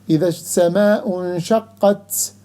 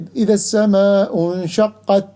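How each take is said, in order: First: The final t has a hissing, whistling quality. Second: The final t is crisp with no hiss. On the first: The speaker calls it wrong. "with characteristic of صفير, like some people do ... which is wrong" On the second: The speaker calls it right. "The right way ... you leave the tongue up"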